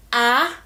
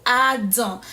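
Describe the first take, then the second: First: ADAM broken slowly into a nasal-ending "ah... dahn"; step by step. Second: Said in the usual way. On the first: Shown as a demonstration. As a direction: sound out ADAM piece by piece, French-style. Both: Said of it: "take the word again step by step".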